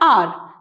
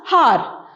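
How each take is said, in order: First: The word begins directly with a vowel sound. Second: The word begins with an audible h sound. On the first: The speaker calls it right. "We pronounce it as R. So here H will be silent" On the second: The speaker calls it wrong. "we don't pronounce it as har"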